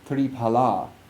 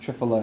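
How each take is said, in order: First: It is said with the original Sanskrit sounds. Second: It is said with Hindi-influenced, Westernized sounds. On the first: "Those are how we pronounce certain words in Sanskrit" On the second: "when we've inherited it through two hundred years of Hindification"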